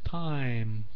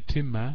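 First: The vowel is the 'eye' diphthong sound. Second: The vowel is a short 'ih' sound. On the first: The speaker calls it right. "I sound, I" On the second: The speaker calls it wrong. "We don't say timme"

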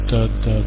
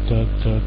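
No difference in how they are said.

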